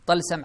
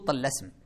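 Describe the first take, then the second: First: The word follows the vowel pattern of jaʿfar. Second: The word has a vowel pattern unlike jaʿfar. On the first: "على وزن جعفر" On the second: "وبعضهم يقول طلسم"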